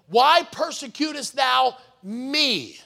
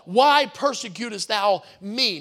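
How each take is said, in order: First: The word 'me' is strongly emphasized. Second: The word 'me' carries no special emphasis.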